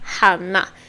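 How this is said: The name is said with a Swedish pronunciation. "how we pronounce it in Swedish. We call it Hanna"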